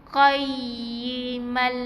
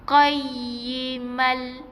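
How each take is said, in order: Both takes have the same delivery.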